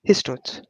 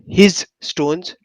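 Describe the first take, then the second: First: It is run together as one word. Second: It is split into two separate words. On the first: The speaker calls it right. "One single term" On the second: The speaker calls it wrong. "not his stones. No, we never say that"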